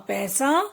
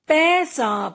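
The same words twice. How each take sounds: First: Said in the usual way. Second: "पैसा" split as पै-सा; teacher's drawn-out "पैसा"; sounding out. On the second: Shown as a demonstration. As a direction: stretch both syllables of "पैसा". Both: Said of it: "कुछ ए के शब्द भी हैं".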